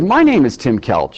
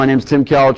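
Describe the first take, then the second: First: It sounds friendly, upbeat and enthusiastic. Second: It sounds flat, with no enthusiasm. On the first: The speaker calls it right. "So make it friendly, upbeat, confident, enthusiastic. Let me do it one more time" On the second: The speaker calls it wrong. "No enthusiasm, flat"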